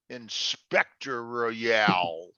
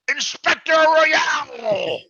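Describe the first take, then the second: First: It is said in a low, menacing way. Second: It is said with proud, joyful excitement. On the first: The listener is now in real trouble. "It was more of a threat" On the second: The speaker is celebrating an achievement. "he didn't say it with like pride and joy"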